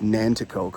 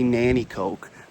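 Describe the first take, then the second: First: The middle t sound is pronounced. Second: The middle t sound is dropped. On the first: This matches how the name is spelled. The speaker calls it right. "but it's Nanticoke" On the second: This is how local people say it. The speaker calls it wrong. "they say Nannycoke"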